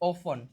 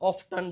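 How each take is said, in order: First: The t sound is left out completely. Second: The t sound is pronounced in the middle. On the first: The speaker calls it right. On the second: The speaker calls it wrong.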